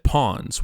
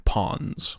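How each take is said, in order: First: "Pons" said like "pawns", no d; "Pons" pronounced as the word pawns; misheard name. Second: "Pons" said like "ponds", with a d; "Pons" pronounced as the word ponds; correct, boring name. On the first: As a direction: say "Pons" as the chess pieces, pawns. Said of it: "I originally thought he said Pons". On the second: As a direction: say "Pons" as small lakes, ponds. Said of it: "the much more boring Pons". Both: Shown as a demonstration.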